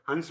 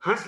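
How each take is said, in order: First: हंस with a clear n before the s; anusvara n sound. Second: हंस with a nasalized vowel and no separate n. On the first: Teacher contrasting the bird's name, हंस with a distinct n. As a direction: say हंस as hans, the bird. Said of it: "वो एक पक्षी का नाम है हंस". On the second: Teacher showing pupils the chandrabindu sound, हंस with nasalized vowel. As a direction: say हंस as hãs, through mouth and nose. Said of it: "हंस बोलेंगे तो चंद्र बिंदी लगती है". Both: Shown as a demonstration.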